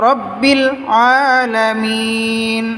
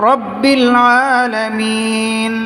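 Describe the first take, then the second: The two takes are said the same way.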